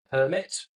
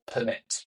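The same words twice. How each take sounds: First: PERmit, the noun, first syllable stressed. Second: PerMIT, the verb, second syllable stressed; stress on MIT in permit. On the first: Podcast guest showing the noun, stress on PER in permit. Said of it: "the stress comes on the first syllable". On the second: Podcast guest showing the verb, stress on MIT in permit. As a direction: push the stress onto the end of permit. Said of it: "the stress comes on the second syllable". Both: Shown as a demonstration.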